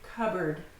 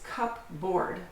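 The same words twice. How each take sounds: First: The P sound is silent before the B. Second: The P sound is pronounced before the B. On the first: The speaker calls it right. "we can't pronounce the P and B right next to each other, so we just say cupboard" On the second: The speaker calls it wrong. "it looks like it's cupboard, but no"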